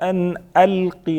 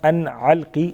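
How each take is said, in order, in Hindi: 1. Alqi की शुरुआत हल्के ग्लोटल स्टॉप से होती है। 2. Alqi की शुरुआत गले की 'ain ध्वनि से होती है।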